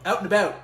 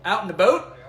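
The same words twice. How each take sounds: First: "Out and about." with open ow vowels, falling; open pronunciation. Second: "Out and about?" ending like "a boat", louder; Canadian pronunciation attempt. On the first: Host settling on an answer, "Out and about." with open ow. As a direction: settle loudly on ow sounds in "Out and about.". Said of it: "I think it's out and about". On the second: Host testing Canadian vowels, "Out and about?" with rounded "a boat". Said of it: "is it oot and a boot or out and about". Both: Shown as a demonstration.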